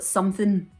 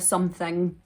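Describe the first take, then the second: First: The ending is a reduced 'in' sound. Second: The ending is a full 'ing' sound. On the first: "you would say like something" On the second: "instead of something"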